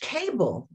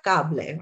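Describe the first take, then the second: First: It is said with English vowel sounds. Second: It is said with Spanish vowel sounds. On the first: "like in the word English cable" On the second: "we're pronouncing the vowel sounds differently"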